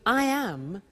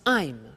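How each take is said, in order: First: It is said as two full words. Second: It is said as one contracted word. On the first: "we contract the form so that"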